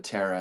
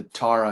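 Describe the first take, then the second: First: Tara said as TERR-a; mistaken vowel. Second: Tara said as TAR-a; corrected vowel. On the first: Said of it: "instead of Tara". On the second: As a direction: say "Tara" with an open "ah". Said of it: "it's just the Tara instead of Tara". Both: Shown as a demonstration.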